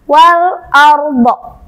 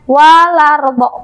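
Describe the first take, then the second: First: The l is held before a separate a. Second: The l runs straight into the following vowel. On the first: The speaker calls it right. "yang benar wal ardo" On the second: The speaker calls it wrong. "Jangan sampai teman-teman membaca walardo"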